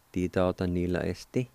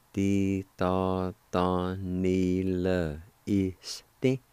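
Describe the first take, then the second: First: Said in the usual way. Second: "Ti ta ta ni le este." drawn out slowly and smoothly; slow, careful teaching pronunciation; very slow demo. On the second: Shown as a demonstration. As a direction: stretch every syllable of "Ti ta ta ni le este.". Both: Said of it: "it's pronounced like this".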